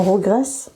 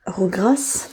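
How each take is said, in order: First: "regraissent" with an open "è" in the middle; corrected pronunciation. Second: "Regrassent" with an open "a" in the middle, questioning; doubtful mispronunciation. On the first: Correcting herself on the verb, "regraissent" said with an "è". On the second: Unsure of the verb for greasy hair, "Regrassent" said with an "a". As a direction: try out "Regrassent" with "gra" as in "gras". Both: Shown as a demonstration. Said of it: "Non, regraissent".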